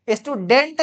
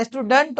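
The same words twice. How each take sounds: First: स्टूडेंट with a full e, "stu-DENT"; wrong pronunciation. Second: स्टूडेंट with a weak vowel, "STU-dunt"; correct pronunciation. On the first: Teacher rejects this reading, स्टूडेंट with full "-dent". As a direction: say स्टूडेंट ending in a clear "-dent". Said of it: "स्टूडेंट नहीं होता". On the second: Teacher gives the correction, स्टूडेंट with reduced "-dunt". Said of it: "स्टूडेंट होता है". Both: Shown as a demonstration.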